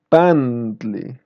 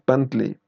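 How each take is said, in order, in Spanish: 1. La primera vocal es larga. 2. La primera vocal es corta. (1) "es pantli" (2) "no es pantli"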